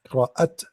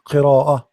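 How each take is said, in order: First: The word ends with a clear, closed t. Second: The word ends with a light, breathy h. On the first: The speaker calls it wrong. "You don't say qira'at. Like you don't close your mouth" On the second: The speaker calls it right. "you make it light"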